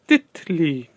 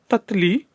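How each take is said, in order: First: The first vowel is an 'i' sound. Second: The first vowel is an 'a' sound. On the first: The speaker calls it right. "It's Titli" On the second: The speaker calls it wrong. "not Tatli"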